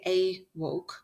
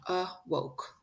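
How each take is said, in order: First: The first vowel is a long A sound. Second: The first vowel is a weak schwa sound. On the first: The speaker calls it wrong. "If it was a long A" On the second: The speaker calls it right. "It's the schwa sound"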